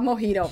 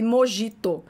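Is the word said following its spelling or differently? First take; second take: differently; following spelling. First: It is said differently from its spelling. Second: It is said the way its spelling reads. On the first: This is how the word is actually said. "mas a gente fala mojito" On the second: This is how the word is written. "escreve mojito"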